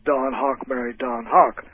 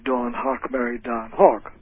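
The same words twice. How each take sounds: First: Both names are said with the same vowel. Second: The two names are said with different vowels. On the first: "For about half the geographic area of North America, the words cot and caught are pronounced the same way" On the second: "whereas the people in New York might say"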